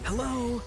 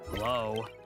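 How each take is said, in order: First: It sounds angry. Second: It sounds frustrated.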